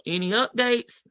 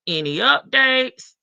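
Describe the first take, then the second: First: Said in the usual way. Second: Slow, louder read of the message; emphatic read. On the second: Shown as a demonstration. Reading a chat message aloud, slow and emphatic. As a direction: lean on updates as you read it out.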